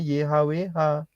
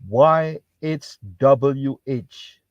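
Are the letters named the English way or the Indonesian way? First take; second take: Indonesian; English. First: The letters are spelled out with Indonesian letter names. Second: The letters are spelled out with English letter names. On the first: "Untuk Indonesia ngomongnya Y H W H" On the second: "Untuk orang Inggris ngomongnya Y H W H"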